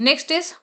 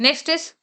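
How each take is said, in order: No difference in how they are said.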